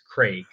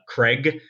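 First: The vowel is long, like 'crayg'. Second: The vowel is short, like 'creg'. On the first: The speaker calls it right. "I love that the British actually pronounce it correctly. It's Craig" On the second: The speaker calls it wrong. "Most Americans, we say Craig, like C-R-E-G"

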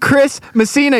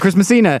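First: The two names are said with a clear break. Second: The two names are run together without a break. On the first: It is a first name and a last name. The speaker calls it right. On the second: It sounds like a single name. The speaker calls it wrong.

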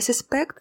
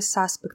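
First: The stress is on the second syllable. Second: The stress is on the first syllable. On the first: It is used as a verb. "Я подозреваю" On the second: It is used as a noun. "подозреваемый"

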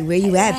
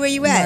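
First: It is said in a sultry, seductive tone. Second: It is said in a plain, casual tone. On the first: The message is read as romantic or suggestive. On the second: A simple question about location.

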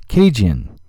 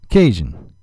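Both takes have the same delivery.

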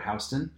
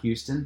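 First: The first syllable sounds like 'how'. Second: The first syllable sounds like 'hyoo'. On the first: This is how the street in New York is named. The speaker calls it right. "but Houston" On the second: This is how the city in Texas is named. The speaker calls it wrong. "not Houston"

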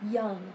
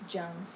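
First: The word begins with a 'y' sound. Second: The word begins with a 'j' sound. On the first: The speaker calls it right. "it sounds like this" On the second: The speaker calls it wrong. "not jung. ... not ja"

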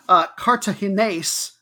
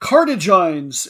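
First: The stress falls in the native Spanish way. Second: The stress falls in an Anglicized, American way. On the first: The speaker calls it right. "get my emphasis on the right syllable" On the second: The speaker calls it wrong. "do a really American"

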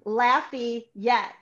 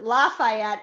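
First: It is pronounced the way locals say it. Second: It is pronounced the way outsiders say it. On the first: The speaker lives in the town. The speaker calls it right. "It's Lafayette" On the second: The speaker is not from around here. The speaker calls it wrong. "you don't pronounce it Lafayette"

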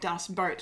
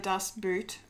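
First: The second word's vowel sounds like 'oa' in boat. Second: The second word's vowel sounds like 'oo' in boot. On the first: "they'll go, I've heard Dust Boat" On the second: "they'll say either Dust Boot"

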